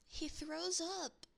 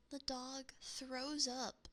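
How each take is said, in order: First: "throws" hit higher and louder, slow; stress on throws. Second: Said in the usual way. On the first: Shown as a demonstration. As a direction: lean hard on "throws" in disbelief.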